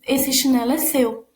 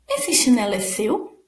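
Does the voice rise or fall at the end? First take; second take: fall; rise. First: The voice falls at the end like a statement. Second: The voice rises at the end like a question. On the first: It is stated as a fact. The speaker calls it wrong. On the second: It is asked as a question. The speaker calls it right.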